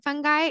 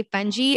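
First: "fungi" said as FUN-guy; FUN-guy pronunciation. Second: "fungi" said as FUN-jee; FUN-jee pronunciation. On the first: Host giving her usual way of saying it, "fungi" as FUN-guy. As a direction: say "fungi" with a hard g, ending like "guy". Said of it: "I've always called it fungi". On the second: Host quoting the film's way, "fungi" as FUN-jee. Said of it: "that film where they say fungi". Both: Shown as a demonstration.

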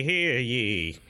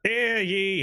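First: Town crier. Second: High ringing town crier call. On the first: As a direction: finish the proclamation calmly. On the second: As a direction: announce it to the whole square. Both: Acted. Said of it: "he is dressed as Ben Franklin".

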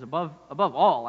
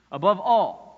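First: Said in the usual way. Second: Above all said louder with weight on all; emphatic above all. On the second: Shown as a demonstration. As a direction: lean hard into all in Above all. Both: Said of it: "actually, priority is here".

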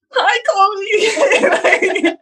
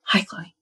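First: Very high, laughing "Hi, Chloe"; mock awkward squeak. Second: Much softer, shy little hi; timid mumbled hi. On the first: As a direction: squeak it out like a nervous teen. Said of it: "Like this". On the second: Retold or imitated. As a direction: barely get the name out, shrinking. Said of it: "slinks behind her and he's like".

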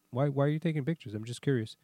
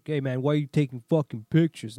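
First: Calm, even, curious asking; polite question. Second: Rude demand. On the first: Retold or imitated. To the towing guy photographing his car: polite curiosity. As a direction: keep it friendly and harmless. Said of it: "with a perfect tone". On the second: Shown as a demonstration. To the towing guy, the rude version he didn't use: hostile. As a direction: snap it at him like a picked fight. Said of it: "I didn't, like".

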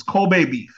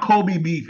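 First: Kobe said as KOH-bay; Koh-bay pronunciation. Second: Kobe said as KOH-bee, slowly; Koh-bee pronunciation. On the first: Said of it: "That's not how it's pronounced". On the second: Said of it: "difference between how things spelled". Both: Shown as a demonstration.

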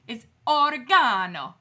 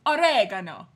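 First: Put-on loud Italian-accented "oregano", or-e-GAH-no; hammed-up Italian accent; mock Italian accent. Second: Loud "oregano" as o-REG-a-no; emphatic comeback, "oregano" stressed on the second syllable; defiant American oregano. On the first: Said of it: "do it with an Italian accent". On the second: Retold or imitated. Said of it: "I can do that too".

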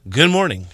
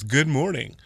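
First: Anchor voice. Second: Said in the usual way. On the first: Shown as a demonstration. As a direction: say it like a morning news anchor. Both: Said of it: "what was that anchor voice?".

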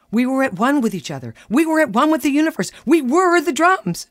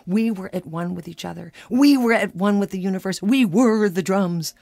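First: Mock her blissful drum trance; soaring high ecstatic build; rising rapture. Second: Rising rapture. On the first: Husband echoes her rapture. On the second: Retold or imitated. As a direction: swell with blissful wonder. Building rapture of drumming.

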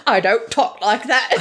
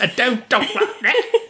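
First: Badly faked English accent, veering Cockney; hammy attempt at an English film-star accent; Cary Grant. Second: Very high, laughing fake English accent; botched Cary Grant accent. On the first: Cary Grant objecting to the imitation, shaky-aim Cockney-ish English accent. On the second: Host failing at the Cary Grant voice, high laughing English accent. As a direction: squeal it in a badly faked Cockney accent. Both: Shown as a demonstration. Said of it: "I can't do the voice".

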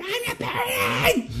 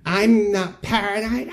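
First: Screeching "I'm not paranoid" way up high; shrill high shriek of "paranoid"; unhinged shout. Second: High, slow, tight denial of "paranoid"; high slow insistent denial. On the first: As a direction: lose it and shriek the denial. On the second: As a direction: deny it through clenched calm. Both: Retold or imitated. Nancy denying being paranoid.

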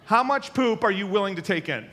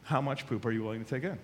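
First: Loud, laughing, high-pitched question. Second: Serious repeat. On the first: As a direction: ask it while still cracking up. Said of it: "that sounds funny, right?". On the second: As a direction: drop the laugh and mean it. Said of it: "to a certain extent". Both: Real, not acted.

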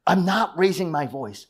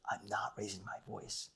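First: Higher-pitched, mock-heated protest; raised-voice denial. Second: Very soft, low, controlled denial; feigned calm. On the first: Husband denying it mid-conflict, mock raised voice. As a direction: insist it with a slightly raised voice. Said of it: "you actually raised your voice". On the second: Acted. Husband answering wife in conflict, softly feigned calm. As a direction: drop to a hushed, over-calm murmur. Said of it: "you actually say it with calmness".

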